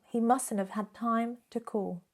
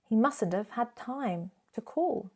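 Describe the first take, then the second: The two takes are said the same way.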